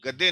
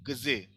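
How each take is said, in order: First: The d sound is hard and doubled. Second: The d sound is softened. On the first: The speaker calls it wrong. "गद्दे नहीं पढ़ेंगे" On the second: The speaker calls it right. "ये इस दे को सॉफ्ट कर देगा"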